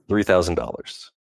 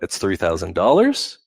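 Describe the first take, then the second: First: The pitch falls at the end, sounding sure. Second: The pitch rises at the end, like a question.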